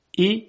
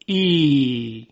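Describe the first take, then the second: First: "ای" as a brief, higher kasra sound; short vowel. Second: "ای" held as a long ee; stretched vowel. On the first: Teacher giving the kasra first, "ای" said short. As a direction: keep "ای" short, not stretched. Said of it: "صدای کسره". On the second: Teacher showing kasra lengthened, "ای" sustained. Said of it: "کشیده بشه". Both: Shown as a demonstration.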